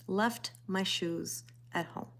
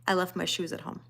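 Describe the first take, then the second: First: Softer, slow, dismayed repeat; hushed, slow echo of her own mistake; softer disbelief. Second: Said in the usual way. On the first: Real, not acted. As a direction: let it sink in, quietly and slowly. Repeating the mishap for emphasis.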